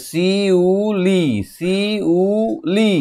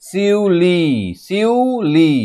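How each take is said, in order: First: "শিউলি" very slow, শি-উ-লি; sounding out. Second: "শিউলি" higher, in two held parts, শিউ-লি; reading aloud by sound. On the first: Teacher breaks down the word, "শিউলি" stretched by syllable. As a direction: stretch and separate all three syllables of "শিউলি", pitched high. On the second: Teacher reads the written word, "শিউলি" in two parts. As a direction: lift the pitch and blend শিউ in "শিউলি". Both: Shown as a demonstration. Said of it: "কত সুন্দর উচ্চারণ".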